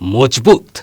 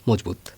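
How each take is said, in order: First: The word is said forcefully, with strong emphasis. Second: The word is said plainly, without special emphasis. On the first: It is very strong indeed. "এই যে বলল মজবুত" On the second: It is simply strong. "যদি বলা হতো মজবুত"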